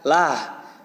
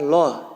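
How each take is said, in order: First: The syllable is said with a light, open a vowel. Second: The syllable is said with a full, dark o vowel. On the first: The word follows a kasrah. "kalau kasroh bertemu lafaz Allah maka dibaca lah" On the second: The word follows a fathah or dammah. "setiap fathah dan domah bertemu lafaz Allah maka dibaca loh"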